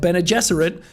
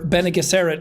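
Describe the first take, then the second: First: It uses the pronunciation heard in the film. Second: It uses the speaker's own reading pronunciation. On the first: The speaker calls it right. "as they're actually pronounced" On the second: The speaker calls it wrong. "as I was calling them in the book"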